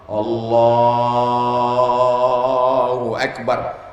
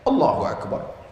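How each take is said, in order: First: The phrase is drawn out for a long time. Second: The phrase is said quickly and briefly.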